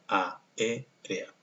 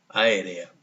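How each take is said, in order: First: The first two vowels are said as separate syllables. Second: The first two vowels are merged into one syllable. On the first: The speaker calls it right. "Cuando en realidad debería sonar aérea" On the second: The speaker calls it wrong. "aquí está haciendo sinéresis, es decir, que sonaría aérea"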